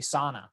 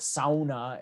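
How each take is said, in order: First: The word is said in a plain local way. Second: The word is said with a thick Finnish-style accent. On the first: "I grew up hearing people just say sauna" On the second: "that real thick kind of Finlander accent"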